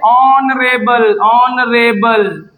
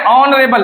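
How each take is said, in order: First: Very slow, stretched ऑनरेबल with silent H; pronunciation demo. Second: Said in the usual way. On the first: Shown as a demonstration. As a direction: draw out every syllable of ऑनरेबल. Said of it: "पढ़ते क्या इसे?". (ऑनरेबल, बहुत धीरे खींचकर) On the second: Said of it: "पढ़ते क्या है?".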